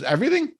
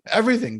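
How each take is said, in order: First: Incredulous rising Everything?; Everything? said in high, rising disbelief; stunned double-check, voice shooting up; surprised question. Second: Said in the usual way. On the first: Retold or imitated.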